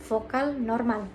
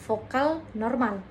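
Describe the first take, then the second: Both takes have the same delivery.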